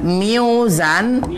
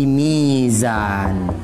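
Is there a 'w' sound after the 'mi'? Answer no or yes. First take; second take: yes; no. First: A 'w' sound follows the 'mi' syllable. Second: A long 'i' with no 'w' sound. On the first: This is the original underlying form of the word. The speaker calls it wrong. "Karena sukar dibunyikan miuzan" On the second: This is how the word is actually recited. The speaker calls it right. "Maka dia bertransformasi menjadi mizan"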